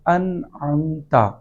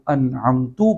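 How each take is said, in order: First: The word ends with an 'a' vowel. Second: The word ends with a 'u' vowel. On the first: The speaker calls it right. "ता के ऊपर ज़बर लिखा है" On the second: The speaker calls it wrong. "ज़बर की बजाय पेश से बदल दिया जाए"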